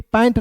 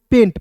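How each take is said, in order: First: पैंट with an open 'ae' vowel; wrong pronunciation. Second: पेंट with an 'ay' vowel; long e vowel in पेंट; correct pronunciation. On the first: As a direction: say पैंट like English 'pant'. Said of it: "पैंट नहीं पढ़ना है". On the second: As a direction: say पेंट with a long e, nasal before the t. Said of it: "को पढ़ेंगे दोस्तों पेंट". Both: Shown as a demonstration.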